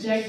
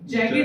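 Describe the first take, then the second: First: The word is said as one syllable. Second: The word is said as two syllables. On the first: "दोनों उसको pronounce करते हैं, जैक्ड भी" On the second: "और जैकेट भी"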